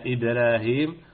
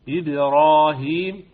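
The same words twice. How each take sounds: First: The r sound is light and thin. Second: The r sound is heavy and full. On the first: The speaker calls it wrong. "ولا إبراهيم" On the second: The speaker calls it right. "وإنما إسرائيل إبراهيم"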